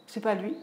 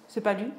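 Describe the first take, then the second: No difference in how they are said.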